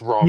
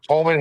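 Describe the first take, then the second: First: The name begins with an R sound. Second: The name begins with an H sound.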